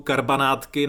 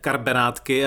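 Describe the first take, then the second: First: The second syllable has an A vowel. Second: The second syllable has an E vowel. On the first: This is the standard form used elsewhere. "sám jsem to teď měl skoro problém vyslovit s tím A" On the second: This is the form common in Brno. "často s E"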